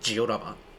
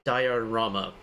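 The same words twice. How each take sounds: First: It is said with a Japanese-style pronunciation. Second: It is said with an English-style pronunciation. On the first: "Japanese is Diorama" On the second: "how do you pronounce that in English?"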